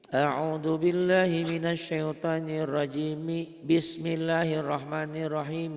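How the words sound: Rajim runs straight into the basmala. "seluruhnya disambung, diwasolkan"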